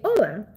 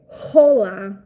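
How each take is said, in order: First: The word begins directly with the vowel. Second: The word begins with an audible H sound. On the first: The speaker calls it right. "In Spanish, the H is silent" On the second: The speaker calls it wrong. "we don't say hola"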